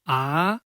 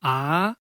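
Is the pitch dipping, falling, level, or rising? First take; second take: rising; rising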